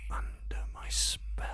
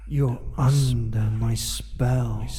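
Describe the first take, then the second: First: Breathy close whisper; whisper in left ear. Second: Soft, slow, close voice; soft slow murmur. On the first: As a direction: whisper right into one ear. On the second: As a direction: murmur it slowly and softly. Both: Acted. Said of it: "and whisper into your ear".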